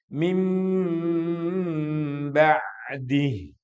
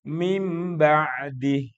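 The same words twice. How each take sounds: First: The m sound is held with a long nasal hum. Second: The m sound is short, without a held hum. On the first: The speaker calls it right. "Ditahan dengan suara dengungan" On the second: The speaker calls it wrong. "Nggak boleh juga mim ba'di. Nggak pas itu"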